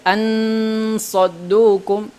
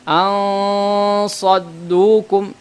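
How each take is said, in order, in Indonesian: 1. N diucapkan penuh dan jelas sebelum s. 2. N menjadi dengung sengau yang berat sebelum s. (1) "jangan sampai ansaddukum, ansaddukum, karena ini adalah izhar" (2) "ini tebal"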